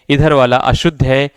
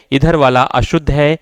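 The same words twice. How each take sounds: The two takes are said the same way.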